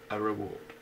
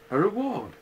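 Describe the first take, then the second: First: Said in the usual way. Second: Louder and higher, punching reward; very loudly. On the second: Acted. Owl repeating himself to Pooh, very loud. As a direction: boom the word reward out at him. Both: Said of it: "said Owl very loudly".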